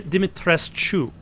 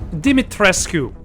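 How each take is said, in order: First: The 'sc' is said with a 'ch' sound. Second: The 'sc' is said without a 'ch' sound. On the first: The speaker calls it right. "It should be a cha sound" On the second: The speaker calls it wrong. "No, no, cha"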